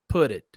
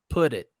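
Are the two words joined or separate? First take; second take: joined; joined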